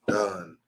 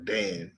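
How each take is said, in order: First: The vowel is an 'uh' sound. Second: The vowel is an 'a' sound. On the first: The speaker calls it right. "It's the uh sound" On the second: The speaker calls it wrong. "Not not a or Dan or eh"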